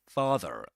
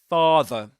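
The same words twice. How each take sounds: First: It is said with an American accent. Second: It is said with a British accent.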